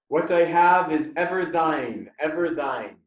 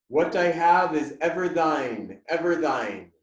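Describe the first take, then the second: Both takes have the same delivery.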